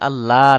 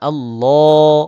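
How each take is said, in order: First: The L sound is light and thin. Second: The L sound is heavy and thick. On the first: The speaker calls it wrong. "আল্লাহ না" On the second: The speaker calls it right. "ল মোটা করে, এইভাবে"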